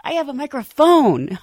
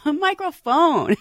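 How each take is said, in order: First: Said in the usual way. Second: "microphone" said slowly and laughing, each syllable spelled out; laughing slow emphasis on "microphone"; emphatic correction. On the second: Shown as a demonstration. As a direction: stress the word "microphone" slowly through a laugh. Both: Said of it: "I'm sorry".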